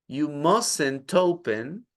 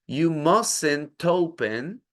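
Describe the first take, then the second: Both takes have the same delivery.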